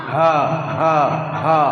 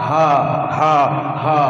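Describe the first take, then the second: No difference in how they are said.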